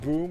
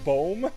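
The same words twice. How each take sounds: First: It is pronounced the English way. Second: It is pronounced the Dutch way. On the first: It is the English word for an explosion sound. "Instead of boom" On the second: It is the Dutch word for tree. "we say boom, and boom is the Dutch word for tree"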